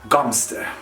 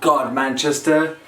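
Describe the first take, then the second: First: The name is squeezed into two short syllables. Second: Every syllable of the spelled name is said. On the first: The speaker calls it right. "It's Gomster" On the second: The speaker calls it wrong. "But it's not God Manchester"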